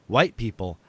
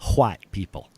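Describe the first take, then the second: First: White is said plainly without a breathy h. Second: White is said with an audible breathy h.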